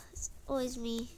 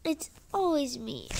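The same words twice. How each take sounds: First: Quieter, sulking self-pity; softer sulky repeat. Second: Said in the usual way. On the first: Acted. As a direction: mutter it to yourself, defeated. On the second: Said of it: "Ugh, it's always me".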